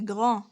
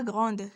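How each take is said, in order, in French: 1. Le son D final est muet. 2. Le son D final se prononce. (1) "c'est grand. D aussi se prononce pas" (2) "On ne dit pas grande"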